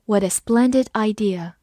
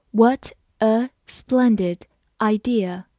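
First: Said in the usual way. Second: Slow, careful model reading. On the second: Shown as a demonstration. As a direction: read it slowly and clearly. (慢速朗读) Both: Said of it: "好，我们慢慢来读。".

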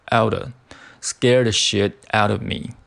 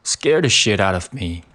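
First: Slow, with the v of "out of" dropped: "out a"; weak out of. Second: Said in the usual way. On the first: Shown as a demonstration. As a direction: run "out of me" together as "outa me", with no v sound. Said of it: "弱读成out of". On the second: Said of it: "我发音可以注意一下".

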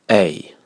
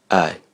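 First: "A" said as a full "ay"; stressed "A", with the full diphthong; strong form. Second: "I" as a short schwa "uh", for the article a; short, unstressed "uh" where written "I"; weak form. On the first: Teacher reading a contrast list, strong form of "A". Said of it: "强读式、弱读式对照列表". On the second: Teacher reading a contrast list, weak "uh" written "I". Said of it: "弱读式对照列表". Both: Shown as a demonstration.

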